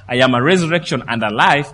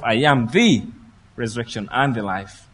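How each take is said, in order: First: "I am a resurrection and a life" said quickly, with plain "a"; the wrong take, with the weak "a"; wrong "a" version. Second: "I am the resurrection and the life" with weight on "the", the rest dropping off; stress on the. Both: Shown as a demonstration. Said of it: "In the Greek, it's emphatic".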